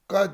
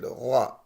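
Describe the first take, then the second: First: It starts with a hard g stop. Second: It starts with a soft throaty friction sound. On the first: The speaker calls it wrong. "Ga değil" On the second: The speaker calls it right. "Ağrının gası"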